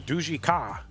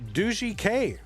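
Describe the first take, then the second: First: The name ends with the syllable ka. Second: The name ends with the letter name K. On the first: "I'm not saying Duji Ka" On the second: "I'll say Duji and then the letter K"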